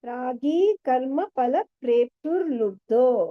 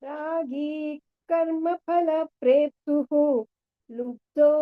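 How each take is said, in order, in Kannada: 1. ಪದ ಕೊನೆಯಾಗೋದು ಮುಂದಿನ ಪದಕ್ಕೆ ಜೋಡಿಸಿರುವ 'r' ಧ್ವನಿಯಿಂದ. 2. ಪದ ಕೊನೆಯಾಗೋದು ಬೇರೆ ಉಸಿರಿನ 'hu' ಧ್ವನಿಯಿಂದ. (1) "ಪ್ರೇಪ್ಸುರ್ ಲುಬ್ಧೋ ಅಂತ ಒಂದೇ ವರ್ಡ್ ಆಗುತ್ತೆ" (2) "ಬಿಡಿಸಿರೋದ್ರಿಂದ ಲುಬ್ಧೋ ಅಷ್ಟೇ ಹೇಳಿ"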